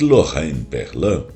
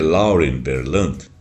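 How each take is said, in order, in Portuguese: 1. O nome se pronuncia do jeito francês. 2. O nome se pronuncia do jeito do inglês americano. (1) "eu sempre achei que ela era francesa" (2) "na realidade, se pronuncia Lauren Berlant porque ela é americana"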